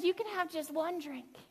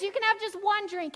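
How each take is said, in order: First: Much softer, coaxing hush; a hushed, much softer temptation to drink; tempting murmur. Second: Said in the usual way. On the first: Retold or imitated. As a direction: lean in close and tempt softly. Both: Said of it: "it's that voice that says".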